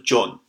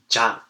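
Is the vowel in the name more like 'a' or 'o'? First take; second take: o; a. First: The name is said with an 'o' vowel. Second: The name is said with an 'a' vowel. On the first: This follows the spelling of the name. The speaker calls it wrong. "I put the little O in it, so it becomes jo, and then I put the N sound" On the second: This follows how the name really sounds. The speaker calls it right. "I would probably put the A sound on it"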